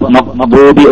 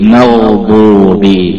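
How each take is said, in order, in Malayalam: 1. gh ശബ്ദം പെട്ടെന്ന് മുറിഞ്ഞു നിൽക്കുന്നു. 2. gh ശബ്ദം തുടർച്ചയായി നീട്ടിപ്പറയുന്നു. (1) "മഖ്ബൂബി എന്ന് പറഞ്ഞാൽ ശിദ്ദത്ത് വന്നു" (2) "കുറച്ച് വലുതാക്കിയിട്ട്"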